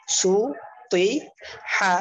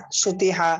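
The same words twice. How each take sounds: First: "সু, তুই, হা" very slow and loud, part by part; teacher splitting "সু, তুই, হা" emphatically; broken-up syllables. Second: "সুতি হা" run together as one word; "সুতি হা" read whole after splitting; joined-up word. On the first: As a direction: draw out each syllable of "সু, তুই, হা" with gaps. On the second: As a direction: blend "সুতি হা" without breaks. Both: Shown as a demonstration. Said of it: "এরকম ভাবে ভাঙ্গা উচ্চারণ".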